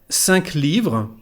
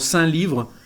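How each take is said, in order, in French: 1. Le son k final de « cinq » se prononce. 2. Le son k final de « cinq » est muet. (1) "En regla general se pronuncia la Q final" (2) "A veces unos no dicen, dicen algo como"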